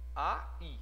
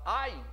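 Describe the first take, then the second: First: The A and stressed I form two syllables. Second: The A and I glide together in one syllable. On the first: "essa palavra tem duas sílabas" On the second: "estariam juntos"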